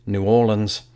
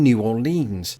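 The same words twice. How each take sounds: First: "Orleans" reduced to "OR-linz"; locals' pronunciation. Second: "Orleans" ending in a long "eens"; rhymes with evergreens. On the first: Naming the play's setting, "Orleans" said OR-linz. Gives the locals' version after contrast. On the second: Explaining the version the locals avoid, "Orleans" ending in "-eens". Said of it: "It even rhymes with evergreens". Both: Shown as a demonstration.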